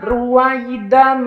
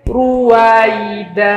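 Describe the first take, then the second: First: The word ends with a nasal 'an' sound. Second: The word ends with a lengthened 'a' vowel. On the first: The reading continues without stopping. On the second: The reader stops at the end of the verse.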